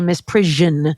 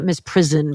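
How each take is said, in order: First: The middle consonant is a 'zh' sound, like vision. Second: The middle sounds like the word prison. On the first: The speaker calls it right. "here in the North, we say misprision" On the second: The speaker calls it wrong. "not misprison"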